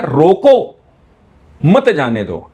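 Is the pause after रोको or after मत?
after रोको. The pause comes after रोको.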